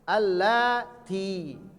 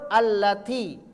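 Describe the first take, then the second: First: The vowel after the l is long. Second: The vowel after the l is short. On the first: It refers to many women. "lanya yang panjang" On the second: It refers to one woman. "Kalau mufrad"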